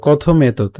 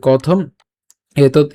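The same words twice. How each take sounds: First: কথম এতৎ linked as kothometot; run together. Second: কথম, clear pause, এতৎ; split words. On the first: Teacher joins the words, কথম এতৎ without a break. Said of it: "আমরা একসাথে উচ্চারণ করবো". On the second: Teacher shows the easier way, কথম and এতৎ apart. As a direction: stop after the m of কথম, then say এতৎ. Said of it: "আগে দেখিয়েছি এভাবে". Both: Shown as a demonstration.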